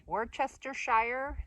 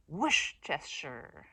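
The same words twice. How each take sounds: First: "Worcestershire" as wor-chester-shire; every syllable of "Worcestershire", slow and high; spelling pronunciation. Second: "Worcestershire" starting with a long WHOOSH; slow "Worcestershire" as WHOOSH-chester-sher; emphasis on whoosh. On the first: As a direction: end "Worcestershire" rising on shire. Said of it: "you could say". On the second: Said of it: "put an emphasis on the whoosh". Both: Shown as a demonstration.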